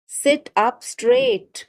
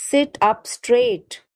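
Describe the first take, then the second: First: Higher and slower, drawn out; raised pitch. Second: Said in the usual way. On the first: Shown as a demonstration. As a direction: lift the voice high and stretch out straight. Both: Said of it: "teacher repeats phrase for learners".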